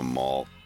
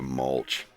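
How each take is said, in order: First: The word ends in an 'lt' sound. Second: The word ends in an 'lch' sound.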